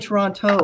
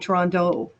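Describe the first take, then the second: First: The second t is a clear t sound. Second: The second t sounds like a d. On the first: This is not how locals say it. "we don't say" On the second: This is how locals say it. "the T's are D's"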